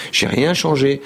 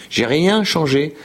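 No difference in how they are said.

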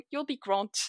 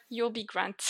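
First: "You'll be grant" with a French accent, the d hardened to t; learner's French-accented "You'll be grant". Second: "You'll be grand" with a French accent, softer, the r uvular; lightly French-accented "You'll be grand". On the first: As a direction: mispronounce "grand" as "grant", French style. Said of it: "I was really struggling with that one". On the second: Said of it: "Can you say it with the French accent?". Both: Shown as a demonstration.

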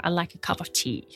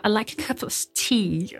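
First: Softer American English accent; relaxed American English, said quietly. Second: Slow, careful British English accent; crisp British English, taking your time. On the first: An American accent demonstrated for the host. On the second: A British accent shown on request to the host. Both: Shown as a demonstration. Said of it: "est-ce que tu peux nous donner un petit exemple".

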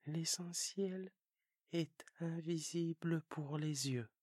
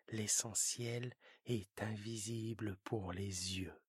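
First: Prince's own voice, stress on "invisible"; child prince echoing the fox; the little prince repeating. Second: Lower, slow fox stressing "est". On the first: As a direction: repeat it to remember, leaning on "invisible". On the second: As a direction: fox voice, lean on "est" slowly. Fox says it, prince repeats. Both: Acted.

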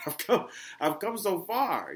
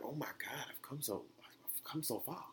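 First: Loud, high, slow amazement; amazed exclamation. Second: Soft, amazed self-quote; hushed awe. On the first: Podcaster laughing at how far he has come, loud amazement. Repeats the quote after laughing. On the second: Podcaster hearing an old episode of himself, hushed awe. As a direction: marvel softly, almost to yourself. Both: Retold or imitated.

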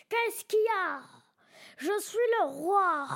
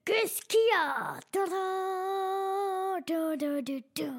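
First: Growled kingly challenge; roaring tyrant king. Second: Roaring tyrant king. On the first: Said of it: "avec un grognement comme ça". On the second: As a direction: boom it out like a bold king. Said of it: "j'aurais fait". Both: Pretend.

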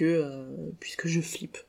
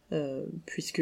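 First: Slow, breathy whisper, barely voiced; whispered confession. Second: Said in the usual way. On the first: Real, not acted. Podcaster admitting her fear to listeners, whispered slowly. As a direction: confide the fear in a slow hush. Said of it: "whispered confession after plain take". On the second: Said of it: "repeats it as a whisper".

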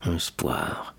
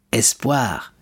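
First: «Espoir» murmured much softer, lower, barely out; choked murmur. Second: Said in the usual way. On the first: A narrator's reading. Fernand tries to offer hope but chokes, soft murmur. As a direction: force «Espoir» out, the word dying in the throat. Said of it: "essaya de murmurer Fernand". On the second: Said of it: "répéta Danglars".

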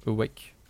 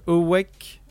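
First: Said in the usual way. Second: English title pronunciation. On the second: Shown as a demonstration. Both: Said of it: "Mon, mon accent".

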